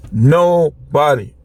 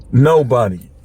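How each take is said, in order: First: Nobody stretched out slowly; slow right down on each part of nobody; nobody, slow and emphatic; drawn-out emphatic nobody. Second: Said in the usual way. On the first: Real, not acted. Repeats word for emphasis.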